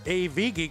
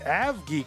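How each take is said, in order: First: AV is spoken as two separate letters. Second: AV is spoken as one short word. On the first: The speaker calls it wrong. "we all started, uh, you know, calling her A V Geek" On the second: The speaker calls it right. "but it's really A- A- Av Geek or Ave Geek, as in aviation"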